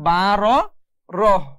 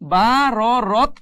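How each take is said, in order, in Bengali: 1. শব্দটি h ধ্বনি দিয়ে শেষ হয়। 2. শব্দটি t ধ্বনি দিয়ে শেষ হয়। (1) "পড়তে হবে বা র রহ" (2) "বা র রত পড়া যাবে না"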